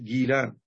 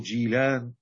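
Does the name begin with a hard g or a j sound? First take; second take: hard g; j. First: The name begins with a hard g sound. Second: The name begins with a j sound. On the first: "أو بالنطق الفارسي جيلان" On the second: "يقال لها الجيل أو جيلان"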